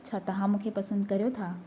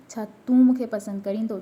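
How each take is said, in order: First: Said in the usual way. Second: "छा तूं मूंखे पसंदि करीं थो?" said louder overall, with तूं set apart from तव्हां; informal तूं stressed. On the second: Shown as a demonstration. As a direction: lean on तूं to contrast it with the polite form. ("तूं" पर ज़ोर, पूरा वाक्य ज़्यादा ऊँची आवाज़ में) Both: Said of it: "तूं and तव्हां".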